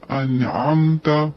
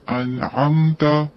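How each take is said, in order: Both takes have the same delivery.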